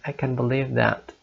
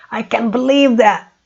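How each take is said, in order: First: It sounds sad and sorry. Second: It sounds happy and excited.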